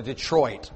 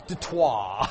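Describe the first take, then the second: First: Said in the usual way. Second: Detroit as de-TWAH with no final t, low and laughing; mock French Detroit, laughing. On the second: Shown as a demonstration. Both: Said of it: "That's, that's French".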